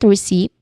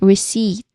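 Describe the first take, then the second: First: A P sound is pronounced before the final T. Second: No P sound is heard before the T. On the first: The speaker calls it wrong. "It's not receipt" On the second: The speaker calls it right. "but receipt. No P sound there"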